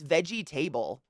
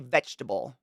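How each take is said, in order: First: Every syllable is sounded out, as spelled. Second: The middle syllable is dropped, as usually said. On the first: "Go spell vegetable and sound it out" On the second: "We say vegetable"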